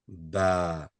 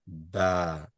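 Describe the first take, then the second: First: The vowel is flat and light. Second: The same.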